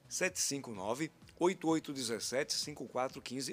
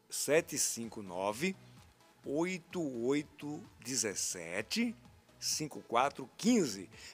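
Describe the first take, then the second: First: The number is said at normal speed. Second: The number is said very slowly.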